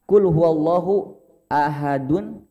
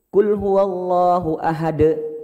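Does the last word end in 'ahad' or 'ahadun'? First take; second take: ahadun; ahad. First: The last word ends with an added -un sound. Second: The last word ends without an added n sound. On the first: The reciter continues straight into the next verse. "Nun ini akan muncul kalau berhadapan dengan alif" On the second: The reciter stops at the end of the verse. "Wakaf itu diberhentikan. Maka nun itu tidak akan muncul"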